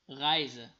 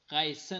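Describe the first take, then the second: First: The s is voiced like a z. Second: The s is voiceless like an s. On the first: The speaker calls it right. "بعد از اس حرف صدادار است" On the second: The speaker calls it wrong. "غیزه نمیخوانیم"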